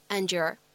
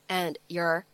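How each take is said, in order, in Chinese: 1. 这两个词通过音的同化连在一起读。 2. 这两个词分开读，没有同化。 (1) "咱们可以选择做一个音的同化的处理。" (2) "就分开读成"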